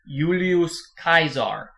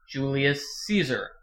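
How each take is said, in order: First: The name is pronounced with Latin-style sounds. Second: The name is pronounced with English-style sounds. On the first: The speaker calls it wrong. "the way it's pronounced in the original Latin" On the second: The speaker calls it right. "You pretend it's an English word"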